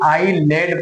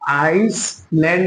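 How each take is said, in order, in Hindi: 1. बीच में कोई s ध्वनि नहीं बोली जाती। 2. बीच में s ध्वनि बोली जाती है। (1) "बल्कि आईलैंड पढ़ेंगे" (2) "आइसलैंड नहीं"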